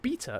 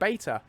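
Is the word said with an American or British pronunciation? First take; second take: British; American. First: The word has a British-style pronunciation. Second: The word has an American-style pronunciation.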